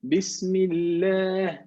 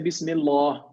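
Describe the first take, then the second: First: The l is thin, with an empty mouth. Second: The l is heavy, with a full mouth. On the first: The speaker calls it right. "we have to make tarqiq. So we say something like Bismillah" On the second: The speaker calls it wrong. "We don't say Bismillah"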